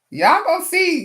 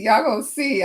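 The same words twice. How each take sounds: First: High, loud playful warning; excited "y'all gonna see"; hyped tease. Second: Said in the usual way. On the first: Real, not acted. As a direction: tease the viewers, pumped.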